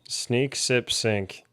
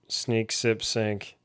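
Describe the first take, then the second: The two takes are said the same way.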